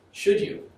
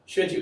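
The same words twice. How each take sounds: First: Should you asked softly under the breath; quiet question. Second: Should you punched higher and louder; emphatic repeat. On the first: Lecturer asks the class, hushed. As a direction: murmur should you to yourself. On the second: Lecturer challenges the class, emphatic. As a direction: press hard on Should you. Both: Shown as a demonstration.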